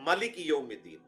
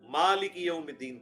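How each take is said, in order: First: The first vowel of malik is short. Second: The first vowel of malik is long. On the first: "मीम के ऊपर खड़ा जबर नहीं, जबर" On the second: "जो कुरैश की किरात है"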